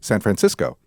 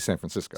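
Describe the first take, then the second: First: Every syllable is pronounced clearly and fully. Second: Some syllables are reduced and run together. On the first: "she pronounces every syllable" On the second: "you would say"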